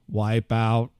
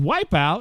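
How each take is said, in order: First: It is said in a flat robotic voice. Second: It is said in a normal natural voice. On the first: The voice assistant understands it. The speaker calls it right. "unless I did it in a robot voice" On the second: The voice assistant fails to understand it. The speaker calls it wrong. "But if I said wipe out"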